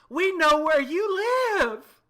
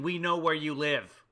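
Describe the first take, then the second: First: It is yelled in a dismayed way. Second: It is said plainly, without yelling.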